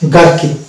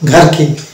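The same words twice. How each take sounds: First: The g is plain, with no breathy h. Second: The g is followed by a breathy h. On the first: The speaker calls it right. "It is a গার্কিন" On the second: The speaker calls it wrong. "Not গার্কিন"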